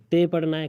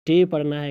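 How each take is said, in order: First: تے with tongue against the teeth; soft dental T. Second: ٹے with tongue curled back for the T; hard retroflex T. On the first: Teacher showing how T may be read, تے with dental T. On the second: Teacher showing how T may be read, ٹے with retroflex T. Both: Shown as a demonstration. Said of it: "اسی طرح ٹی کا".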